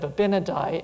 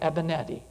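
First: The name begins with an 'ab' sound. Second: The name begins with an 'eb' sound. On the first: The speaker calls it wrong. "instead of Abinadi" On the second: The speaker calls it right. "I think his name is Eben Ed-E"

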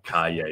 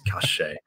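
First: The middle consonant is a y-like sound. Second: The middle consonant is a sh sound.

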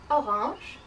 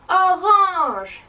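First: It is said at normal loudness. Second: It is said very loudly.

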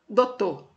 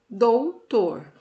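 First: The word is said without the final R. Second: The word is said with every written sound. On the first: "sem o R também" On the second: "a maneira correta, né, da nossa escrita"

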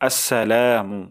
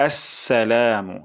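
No difference in how they are said.

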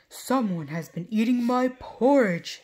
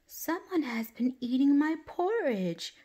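First: It is said in a big, deep voice. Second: It is said in a tiny, small voice.

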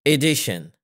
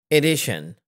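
No difference in how they are said.

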